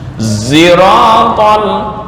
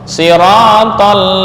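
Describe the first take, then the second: First: The word begins with a z sound. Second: The word begins with an s sound.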